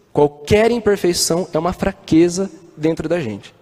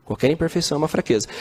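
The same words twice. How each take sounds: First: "Qualquer" hit hard, whole line slow and deliberate; slow stressed QUALQUER. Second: "Qualquer imperfeição é uma fraqueza" tossed off fast and softer; quick soft repeat. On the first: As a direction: lean on "Qualquer" like a sermon point. (ênfase lenta em "Qualquer") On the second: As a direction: rush the echo, quieter. (repetição rápida e mais baixa) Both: Shown as a demonstration. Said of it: "repeated for emphasis".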